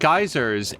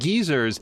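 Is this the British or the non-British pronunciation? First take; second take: non-British; British. First: The word gets a non-British pronunciation. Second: The word gets a British pronunciation. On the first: "I'm sure that he meant" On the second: "when he pronounces it as shit geezers"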